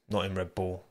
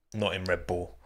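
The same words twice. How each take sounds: The two takes are said the same way.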